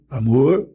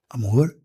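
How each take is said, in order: First: It is said loudly. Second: It is said softly.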